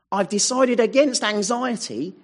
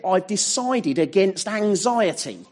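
First: "against" leaned on, pitched higher; stress on against. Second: "decided" leaned on, the rest even; stress on decided. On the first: Preacher repeating the vow, stress moved to "against". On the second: Preacher voicing a believer's vow, stress on "decided". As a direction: press the word "decided" in this imagined vow. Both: Retold or imitated. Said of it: "because they've said".

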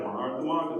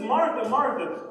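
First: Mock scolding. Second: Higher, slow, loud loving call; intimate love. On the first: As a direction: imitate someone sighing over a repeat offender. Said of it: "the way I usually hear it is like". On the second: Retold or imitated. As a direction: call the name with great affection, drawn out. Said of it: "It's an intimate love".

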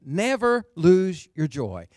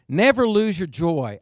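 First: Slow, spaced-out "never lose your joy"; deliberate repeat. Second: NEVER lose your joy, loud in one run; emphatic command. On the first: Preacher repeating his translation to the church, slow and emphatic. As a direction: set each word of "never lose your joy" apart, slowly. Says it again, word by word. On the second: Preacher translating the passage for his church, loud and emphatic. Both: Retold or imitated.

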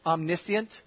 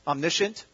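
First: Omniscient said the British way. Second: Omniscient with a sh sound, omni-shent; British omniscient. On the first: Preacher teasing the congregation, mock British Omniscient. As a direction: say Omniscient as they say it in Britain. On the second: Preacher joking about Britain, soft British Omniscient. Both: Shown as a demonstration. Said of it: "That's how they say it in Britain".

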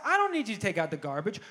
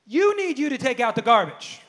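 First: "I don't" set against what follows; stress on I. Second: Emphatic correction landing on "You"; stress on YOU. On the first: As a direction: lean on "I" and "don't", then let the rest fall. Contrasts I with you. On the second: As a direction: hit the opening "You" hard, then drop. Answering line stresses you. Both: Retold or imitated.

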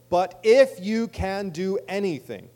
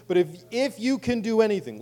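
First: "if you can do anything" said slowly and loudly; slow down and punch "if you can do anything"; emphasized phrase. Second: Said in the usual way. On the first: Shown as a demonstration. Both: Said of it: "listen to this phrase".

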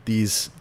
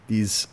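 Both takes have the same delivery.

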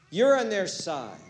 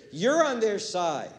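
Both takes have the same delivery.

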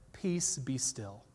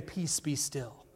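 First: Soft, slow, low command; quiet, slow authority; calm command. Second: Soft, slow whisper; whispered calm authority; whispered command. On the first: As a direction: hush the storm gently. Jesus calms the storm. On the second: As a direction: breathe the words out. Jesus calms the storm, retold. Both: Retold or imitated.

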